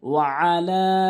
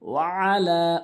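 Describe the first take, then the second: First: It begins with a tight sound from mid-throat. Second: The same.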